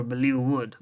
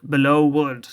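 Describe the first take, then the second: First: "Bellew Wood" with Bellew ending in an oo sound; first-guess pronunciation. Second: "Belleau Wood" with Belleau ending in an oh sound; corrected pronunciation. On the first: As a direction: say "Bellew Wood" as if it rhymed with blue. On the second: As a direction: say "Belleau Wood" as if it rhymed with below. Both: Acted. Self-corrects the place name.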